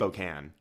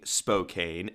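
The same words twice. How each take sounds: First: The last syllable sounds like 'can'. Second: The last syllable sounds like 'cane'. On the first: The speaker calls it right. "It's Spokane" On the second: The speaker calls it wrong. "So I was saying Spokane, ... you're saying that wrong"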